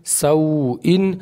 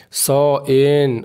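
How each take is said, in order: First: सौइन said slowly as sau-in, each vowel clear; slow model reading of सौइन; correct reading. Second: सौइन said as "saen", the u dropped; wrong reading. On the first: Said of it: "पढ़ना है किस तरीके से?". (सौइन को सही और धीरे "सौ-इन" पढ़ना) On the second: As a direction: deliberately mispronounce सौइन as saen. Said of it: "ये सब गलत है". (सौइन को जानबूझकर "सैन" पढ़ना) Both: Shown as a demonstration.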